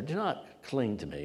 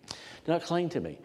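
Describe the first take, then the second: First: Said in the usual way. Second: "Do not cling to me" said higher, with a smile; a gentle smiling rebuke; light, amused, much higher. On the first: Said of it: "I think he said it with a". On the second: Shown as a demonstration. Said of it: "I think he said it with a, a smile on his face".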